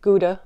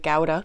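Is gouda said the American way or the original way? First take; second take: American; original. First: Gouda is said with an American pronunciation. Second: Gouda is said with its original non-American pronunciation. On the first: The speaker calls it wrong. "How Americans say gouda" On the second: The speaker calls it right. "but it's really gouda"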